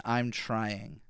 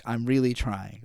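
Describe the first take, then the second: First: Said in the usual way. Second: "really" leaned on hard; pleading weight on "really"; stress on really. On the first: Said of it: "the emphasis is on". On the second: Shown as a demonstration. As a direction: push the word "really" like a plea. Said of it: "really emphasis on".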